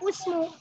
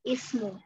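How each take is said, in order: First: The first vowel is a u sound. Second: The first vowel is an i sound. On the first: The speaker calls it wrong. "nggak boleh dibaca usmu" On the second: The speaker calls it right. "tetapi harus kasroh"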